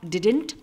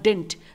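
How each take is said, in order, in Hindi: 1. बीच की d ध्वनि पूरी तरह बोली जाती है। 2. बीच की d ध्वनि पूरी तरह छोड़ दी जाती है। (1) "इसे आप डिडंट और डिंट दोनों ही तरीके से प्रोनाउंस कर सकते हैं" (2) "इसे आप डिडंट और डिंट दोनों ही तरीके से प्रोनाउंस कर सकते हैं"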